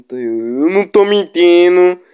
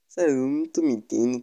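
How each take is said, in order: First: Louder, slower insistence; emphatic insisting. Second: Said in the usual way. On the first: Real, not acted. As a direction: insist it, drawn out.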